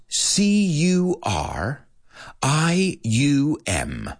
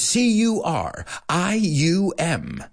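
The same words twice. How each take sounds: First: Slow, spaced-out letters with a pause after each; slow spelling. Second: Fast spelling. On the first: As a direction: give each letter its own beat so students can follow. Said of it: "at a more human pace". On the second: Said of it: "I really can't go faster". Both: Shown as a demonstration.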